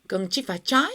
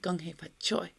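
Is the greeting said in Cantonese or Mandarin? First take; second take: Mandarin; Cantonese. First: The greeting is said in Mandarin. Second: The greeting is said in Cantonese. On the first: "In Mandarin you say" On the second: "in Cantonese we say"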